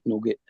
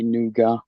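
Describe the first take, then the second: First: The word is said like English nugget. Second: The word is said in the French way. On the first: This is how people locally say it. "but we all call it nugget" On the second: This is the original French pronunciation. "it's a French word though, so it's supposed to be nougat"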